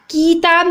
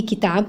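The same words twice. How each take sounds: First: "किताब" with a long ee; wrong long vowel. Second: "किताब" with a short i; correct short vowel. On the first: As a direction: say "किताब" as kee-taab. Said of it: "किताब नहीं होता". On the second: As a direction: say "किताब" as ki-taab. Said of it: "बल्कि किताब होता है". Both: Shown as a demonstration.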